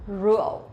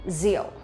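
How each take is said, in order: First: The word begins with an R-like sound. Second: The word begins with a Z-like sound. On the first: "if you really want to pronounce this one correctly" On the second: "we pronounce like Z sound"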